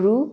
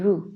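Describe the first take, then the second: First: The vowel u is short. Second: The vowel u is long. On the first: "वो रू" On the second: "रॉ plus बड़ाऊ ये भी रू होगा"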